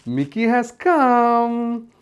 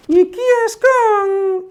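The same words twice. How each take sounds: First: Said in the usual way. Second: High, slow cartoon puppet voice; Mickey puppet voice. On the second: Puppet Mickey arriving to meet the children, high slow voice. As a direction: stretch it out like a shy puppet.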